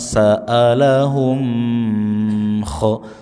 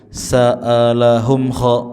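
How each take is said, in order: First: The hum is held too long before kha. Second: The hum is rushed straight into kha. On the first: "jangan kelamaan ... salah juga" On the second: "jangan buru-buru ... tidak"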